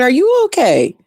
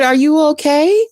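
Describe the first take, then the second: First: "you" swung up high, then falling; high, emphatic "you" with a falling finish; stress on YOU. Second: High-pitched question, rising on "okay"; retold concern with a lifted, questioning end; concerned neighbor. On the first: Retold or imitated. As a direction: turn the question back by leaning on "you". Turning the neighbor's question back. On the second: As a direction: ask it as a worried neighbor checking in. Quoting the worried neighbor.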